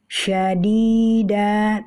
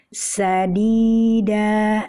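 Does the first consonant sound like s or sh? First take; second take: sh; s. First: The first consonant is a sh sound. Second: The first consonant is a plain s sound. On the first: The speaker calls it right. "membaca syadida" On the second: The speaker calls it wrong. "dibaca dengan sadida ... menukar huruf shin menjadi sin"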